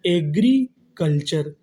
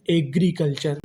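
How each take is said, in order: First: Drawn out slowly for students; slow syllable-by-syllable reading. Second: Said in the usual way. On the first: Shown as a demonstration. Teacher reading a new word slowly to the class, drawn out. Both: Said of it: "तो meaning क्या बनी हमारी?".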